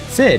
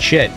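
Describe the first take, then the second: First: The word begins with a plain s sound. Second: The word begins with an sh sound.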